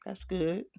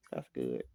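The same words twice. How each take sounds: First: Higher, slightly rising voice; high-pitched reply. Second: Very low and softer; low-pitched reply. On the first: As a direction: lift the words up high. Reader repeats her reply, voice changed. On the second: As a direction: drop right down, under your usual voice. Same reply, dropped very low. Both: Acted.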